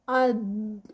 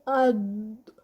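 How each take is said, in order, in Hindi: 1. अंतिम व्यंजन को रोककर लंबा खींचा जाता है। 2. अंतिम व्यंजन को रोककर लंबा खींचा जाता है।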